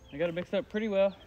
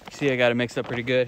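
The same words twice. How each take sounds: First: Higher, strained while kneeling down. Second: Said in the usual way. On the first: Real, not acted. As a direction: talk while crouching at a pile. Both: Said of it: "let me kneel down here".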